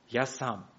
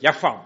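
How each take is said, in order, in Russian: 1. Слово начинается с чёткого звука S. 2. Слово начинается со звука F.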